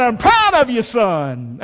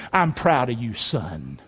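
First: Emphatic fatherly pride. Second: Very low, settling deeper on the last word; quiet fatherly pride, pitched low; tender, proud father. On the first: Shown as a demonstration. Preacher showing dads what to tell sons, emphatic pride. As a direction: declare it firmly, then settle on the last word. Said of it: "you need to say to your son". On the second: Acted. God the Father to Jesus, low tender pride. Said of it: "He said this".

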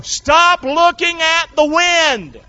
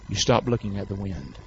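First: High, loud, slow drawn-out command; shouted preaching command. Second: Low, soft instruction; quiet firm command. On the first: Preacher commands the congregation in the storm, shouted preaching. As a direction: hammer out each word at full force. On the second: Preacher counsels believers against Satan's blowing, quiet command. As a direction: bring the command right down. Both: Real, not acted.

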